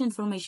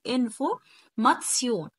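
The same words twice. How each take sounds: First: The ending sounds like 'shun'. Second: The ending sounds like 'tsion'. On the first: The speaker calls it wrong. "لا احنا ما بنقولش information" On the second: The speaker calls it right. "بنقول information"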